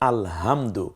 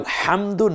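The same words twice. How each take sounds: First: The h is made with a relaxed throat. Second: The h is made with a tightened throat. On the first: It refers to torn scraps of cloth. The speaker calls it wrong. "এই হাটি যেটা গোল হা" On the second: All praise belongs to God. The speaker calls it right. "কেন আলহামদু না বলে"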